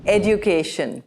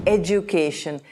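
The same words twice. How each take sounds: First: Education as ED-yoo-KAY-shun; British pronunciation. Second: Education as EJ-oo-KAY-shun; American pronunciation. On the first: Teacher comparing with American, British pronunciation. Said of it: "In British English". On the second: Teacher comparing with British, American pronunciation. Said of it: "in American English". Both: Shown as a demonstration.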